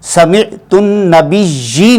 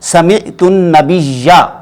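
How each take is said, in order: First: The last word ends with an 'ee' vowel. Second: The last word ends with an 'a' vowel. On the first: The speaker calls it wrong. "नहीं कहेंगे" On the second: The speaker calls it right. "ज़बर आएगी, नसब आएगी"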